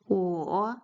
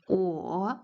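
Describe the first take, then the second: Both takes have the same delivery.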